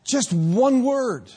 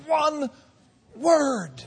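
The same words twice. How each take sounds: First: "Just one word" drawn out slowly, leaning hard on "one"; slow and deliberate, "one" weighted; stress on ONE. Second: "One" pitched high and set apart before "word"; broken emphasis. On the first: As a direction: stretch "one word" out, pressing "one". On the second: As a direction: split it, "One" high, pause, then "word". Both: Shown as a demonstration.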